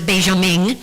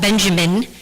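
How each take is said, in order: First: The name is pronounced the local way. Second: The name is pronounced the English way. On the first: "but they pronounce it" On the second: "we in English would call it"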